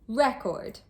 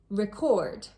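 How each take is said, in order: First: The stress is on the first syllable. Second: The stress is on the second syllable. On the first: It is a noun. "As a noun, ... the stress was placed on the first syllable" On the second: It is a verb. "As a verb, ... the stress was placed on the second syllable"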